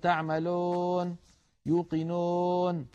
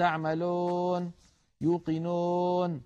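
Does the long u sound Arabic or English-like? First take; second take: English-like; English-like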